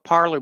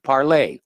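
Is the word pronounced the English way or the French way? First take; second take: English; French. First: The word is said with English-style pronunciation. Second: The word is said with French-style pronunciation. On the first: The speaker calls it wrong. "a lot of people call it parlor because of the way it's spelled" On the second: The speaker calls it right. "it's the French pronunciation"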